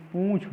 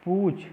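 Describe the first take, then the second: First: पूछ with a nasal vowel, "poonchh"; nasalised oo in पूछ; correct pronunciation. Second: पूछ with an oral vowel, "pooch"; teacher voicing पूछ as plain pooch; wrong pronunciation. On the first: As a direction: send the oo of पूछ through the nose. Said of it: "प पर चंद्र बिंदु होता है". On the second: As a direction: keep पूछ free of nasal sound. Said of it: "नहीं". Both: Shown as a demonstration.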